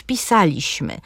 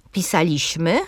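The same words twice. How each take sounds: First: "pisaliśmy" stressed pi-sa-LIŚ-my; stress second from last. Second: "Pisaliśmy" stressed pi-SA-liś-my; stress third from last. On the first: („pisaliśmy” z akcentem na LIŚ) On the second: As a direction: lean on SA in "Pisaliśmy". („Pisaliśmy” z akcentem na SA) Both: Shown as a demonstration. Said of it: "różnie je akcentując, żeby państwo usłyszeli".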